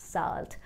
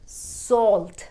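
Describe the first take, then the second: First: The vowel sounds like 'ah'. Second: The vowel sounds like 'aw'. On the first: The speaker calls it wrong. "ना कि साल्ट" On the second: The speaker calls it right. "सॉ"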